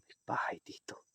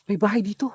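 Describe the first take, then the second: First: Hushed whisper. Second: Loud excited call. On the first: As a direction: whisper so nobody hears. Same words whispered. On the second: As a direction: shout out the discovery. Excited find, then whispered. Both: Real, not acted.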